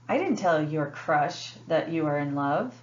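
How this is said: The word crush carries the main stress. It was told to someone other than the crush. "The word crush is emphasized"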